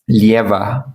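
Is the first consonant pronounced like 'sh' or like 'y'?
y. The first consonant is pronounced like a 'y' sound. This is the general Spanish way, not the Argentine one. "não vão falar é, lieva"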